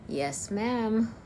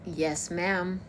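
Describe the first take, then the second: First: Slightly higher Texan yes ma'am; Texan accent, a bit higher. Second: A light Texan drawl on yes ma'am; Texan accent. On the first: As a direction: another go at a Texan twang. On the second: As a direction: show off a Southern Texan twang. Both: Shown as a demonstration. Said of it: "I am able to do the American Texan accent".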